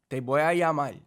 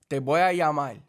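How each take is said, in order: The two takes are said the same way.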